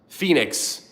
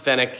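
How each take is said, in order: First: The name sounds like 'Phoenix', with a long vowel. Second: The name sounds like 'Fennec', with a short vowel. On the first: The speaker calls it right. "It's pronounced Phoenix" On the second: The speaker calls it wrong. "I pronounced it the Fennec, and they got mad at me"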